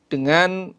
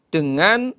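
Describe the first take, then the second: Both takes have the same delivery.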